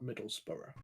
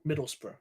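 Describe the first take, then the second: First: The ending is a full two-syllable 'borough' sound. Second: The ending is a short reduced 'bruh' sound. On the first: The speaker calls it wrong. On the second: The speaker calls it right. "bruh, it's not a borough"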